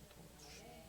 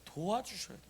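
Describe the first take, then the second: First: Very soft, almost inaudible repeat; hushed echo. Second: Said in the usual way. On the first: Real, not acted. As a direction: let the words die away to yourself. Preacher echoes own answer. (혼잣말처럼 아주 작게 되뇌기)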